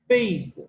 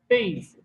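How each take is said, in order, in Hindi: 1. पहले अक्षर का स्वर तेज़ी से नीचे गिरता है। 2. पहले अक्षर का स्वर तेज़ी से नीचे गिरता है।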